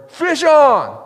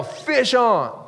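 First: Full shout, much higher and louder; loud yell. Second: Calling out. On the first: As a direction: yell it so the whole river hears. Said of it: "you gotta really yell it loud". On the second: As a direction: call it out to the river. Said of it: "But you gotta yell". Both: Shown as a demonstration.

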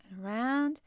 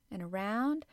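No difference in how they are said.

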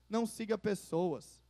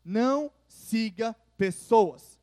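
First: Said in the usual way. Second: Não siga pessoas said slowly, louder, leaning on não; stern pastoral emphasis; emphatic warning. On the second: Shown as a demonstration. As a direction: drive home não, slowly and firmly. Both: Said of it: "Olha pra cá".

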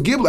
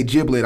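First: "giblet" with a hard g, as in give; hard-g pronunciation. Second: "giblet" with a soft g, like J; soft-g pronunciation. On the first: Retold or imitated. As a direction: say giblet as GHIB-let. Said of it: "I was told that I've been pronouncing it wrong". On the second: Shown as a demonstration. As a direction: say giblet as JIB-let. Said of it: "I've been pronouncing it wrong".

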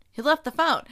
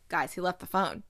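First: Louder, higher, stress on left; emphatic repeat. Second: Said in the usual way. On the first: Real, not acted. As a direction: punch "left" loud and high.

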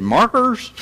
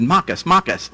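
First: Said in the usual way. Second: "Makas, makas" with no r's, higher pitched; Australian pronunciation. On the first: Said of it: "I said, "Markers?". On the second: Retold or imitated. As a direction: imitate an Australian insisting on "makas" for markers. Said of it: "I had a friend from Australia".

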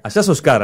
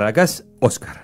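First: Oscar said with the stress on the O, ÓS-car; Argentine stress. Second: Oscar said with the stress moved to the A, os-CAR; Uruguayan stress. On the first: Joking with the host about the name, Oscar stressed on the O. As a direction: stress the first syllable of Oscar, the local way. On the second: Teasing the guest about the name, Oscar stressed on the A. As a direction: land the stress on the last syllable of Oscar. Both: Shown as a demonstration. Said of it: "Oscar, el tilde es en la A".

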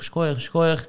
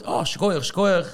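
First: His own Schkoich, schkoich tossed off with a rise at the end; quoted exclamation. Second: Arle's schkoich, schkoich quoted higher, falling at the end; quoted exclamation. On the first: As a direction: say schkoich, schkoich lifting at the close. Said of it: "ich sage". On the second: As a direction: drop the pitch down on the last schkoich. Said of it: "die ist mir gesagt". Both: Retold or imitated.

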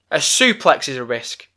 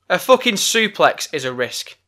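First: Said in the usual way. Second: Fucking hit higher, the rest level; stress on fucking. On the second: Real, not acted. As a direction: lean on fucking to drive it home.

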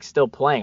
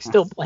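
First: Said in the usual way. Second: Higher, questioning "Still playing?"; incredulous echo. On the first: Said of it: "he's like". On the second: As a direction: STILL PLAYING echoed back as a rising question. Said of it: "I was like, "Still playing?".

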